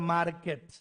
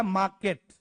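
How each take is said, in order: First: "मार्केट" said as "maar-ket", r pronounced; sounded R. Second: "मार्केट" said as "maa-ket", no r; silent R. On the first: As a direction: voice the r before the k in "मार्केट". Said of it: "और हम बोलते हैं". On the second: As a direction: drop the r in "मार्केट", long first vowel. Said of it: "आर silent रखा जाता है". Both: Shown as a demonstration.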